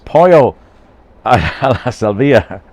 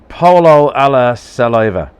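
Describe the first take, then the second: First: The last word is said as salvia. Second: The last word sounds like English saliva. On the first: The speaker calls it right. "So, it's pollo alla salvia" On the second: The speaker calls it wrong. "What the fuck is wrong with you? Polo alla saliva?"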